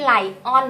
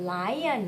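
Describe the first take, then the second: First: "lion" said as "lai-on", with a full "on" ending; mispronounced lion. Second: "lion" said as "lai-yun", second syllable reduced; lion with Y glide. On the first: Mommy shows what not to say, "lion" as "lai-on". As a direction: give "lion" a hard, separate "on" syllable. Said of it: "ม่ใช่ lion นะคะ เป็น lion". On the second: Mommy corrects the word, "lion" as "lai-yun". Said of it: "เป็น lion". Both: Shown as a demonstration.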